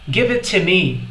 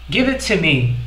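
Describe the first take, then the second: The two takes are said the same way.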